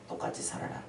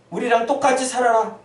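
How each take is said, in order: First: Hushed, breathy echo of the demand; whispered repeat. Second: Firm, pressing command to conform; pushy demand. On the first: Preacher echoing the world's demand, whispered. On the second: Preacher voicing the world's demand, pressing and firm. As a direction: demand it outright, full voice. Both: Acted.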